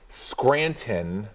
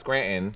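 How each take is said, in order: First: Every sound is pronounced with exaggerated care. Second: Sounds are heavily dropped and swallowed. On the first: "it seems too much" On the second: "That's too little"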